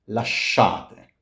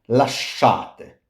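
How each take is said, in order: The two takes are said the same way.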